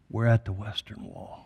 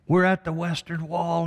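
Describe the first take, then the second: First: A hint of choked tears, lower and hushed; mildly tearful imitation of the commander; weeping commander. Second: Higher, insistent repeat of "We're at the Western Wall"; mild mock of a moved commander crying out; emotional commander. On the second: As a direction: press it home, overwhelmed with joy. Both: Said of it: "Starts to weep as he says".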